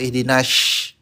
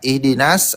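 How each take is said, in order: First: The s sound is said as sh. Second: The s sound is a plain thin s. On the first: "atau nash, itu pakai shin" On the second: "Versi salahnya itu nas, pakai sin"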